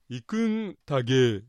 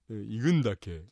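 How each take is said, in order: First: The final syllable starts with a voiced consonant. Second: The final syllable starts with a voiceless consonant. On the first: The speaker calls it wrong. "行くんたげーみてなってたねこれね" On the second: The speaker calls it right. "行くんですかという言い方ね"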